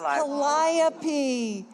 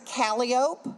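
First: It is said the classical Greek way. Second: It is said the local New Orleans street way. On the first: This is the original name of the muse. The speaker calls it right. "It's Calliope" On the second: This is how the locals say the street name. The speaker calls it wrong. "we mispronounce all of them"

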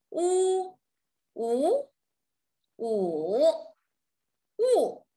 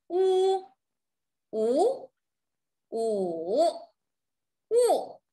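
The two takes are said the same way.

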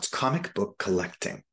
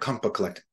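First: The three words are said clearly apart. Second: The three words are run together as one. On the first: The speaker calls it right. "It's not" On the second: The speaker calls it wrong. "it turns into one word"

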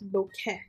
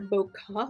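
First: The last syllable ends in an 'eh' vowel. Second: The last syllable ends in an 'uh' vowel. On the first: The speaker calls it right. "bokeh like in Kentucky without the Kentucky" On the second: The speaker calls it wrong. "it's not bokeh like UH"

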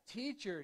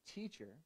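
First: The word is said in a raised, urgent voice. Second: The word is said in a calm, normal voice. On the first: The speaker calls it right. "I should raise my tone" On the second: The speaker calls it wrong. "I should raise my tone because this is clearly not like"

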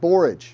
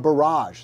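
First: The word is said in the speaker's usual pronunciation. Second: The word is said the way other cultures pronounce it. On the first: "It's called borage" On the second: "or borage, they would say, in other cultures"

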